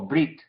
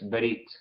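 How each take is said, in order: First: The b and r run together without a vowel. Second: A short vowel is heard between b and r. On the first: "casi como brit" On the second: "pero es berit"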